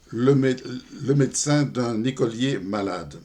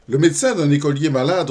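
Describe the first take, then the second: First: Said in the usual way. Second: Raised, energetic opening of a verse; poem recitation. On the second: Acted. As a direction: launch briskly into the poem. Commence la récitation du poème. (récitation de poème, attaque vive)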